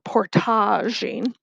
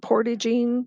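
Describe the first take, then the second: First: It has a Canadian, French-influenced pronunciation. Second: It has a plain non-Canadian, English-style pronunciation.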